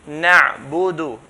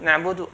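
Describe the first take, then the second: First: The ayn sound is held before release. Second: The ayn sound is released without holding. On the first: The speaker calls it right. "hold the ayn, then let go" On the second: The speaker calls it wrong. "I did not give the ayn its due right"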